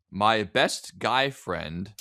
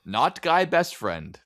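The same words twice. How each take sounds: First: "My Best Guy Friend" slow, each word spaced; title stress. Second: "not Guy Best Friend" slow, higher; contrast stress. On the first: Host reading the Reddit title slowly and deliberately. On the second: Host correcting the word order, slow and pointed. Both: Shown as a demonstration. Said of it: "the words matter".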